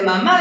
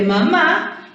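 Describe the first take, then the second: First: "mamá" with the last syllable drawn out and leaned on, Argentine-style; Argentine-style stress. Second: Said in the usual way. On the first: Shown as a demonstration. Teacher shows pupils how to find stress, Argentine-style drawn-out "mamá". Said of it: "Hablamos como un poquitito argentino".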